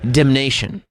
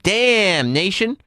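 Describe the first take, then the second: First: It is said smoothly as one word. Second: It is split in two with a pause. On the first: It names eternal punishment. The speaker calls it right. "You're going damnation" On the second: A nation is being cursed. The speaker calls it wrong. "You're not going up to nation and going"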